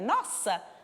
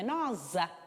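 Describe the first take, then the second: First: The middle consonant is a hissing s sound. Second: The middle consonant is a buzzing z sound. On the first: "para ter o som S ... tenho que colocar os dois S's" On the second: "se eu tivesse colocado um S"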